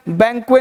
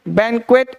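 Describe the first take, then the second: First: बैंक्वे with no final T; wrong pronunciation. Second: बैंक्वेट finished with a T; correct pronunciation. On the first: Teacher rejects the common mistake, T dropped. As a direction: end बैंक्वे open, the T silent. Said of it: "नहीं". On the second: Teacher confirms how to say it, T pronounced. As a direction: sound the final T of बैंक्वेट. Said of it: "ऐसे बोलना है". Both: Shown as a demonstration.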